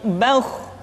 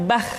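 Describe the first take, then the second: First: The kh sound is thick and heavy. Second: The kh sound is thin and light. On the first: The speaker calls it right. "tapi bauh, menebal suaranya" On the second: The speaker calls it wrong. "tidak bah"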